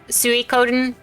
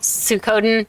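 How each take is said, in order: First: The name is pronounced the standard Japanese way. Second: The name is pronounced in a childish anglicized way. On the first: The speaker calls it right. "I know that it's Suikoden" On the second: The speaker calls it wrong. "that's how little me said it"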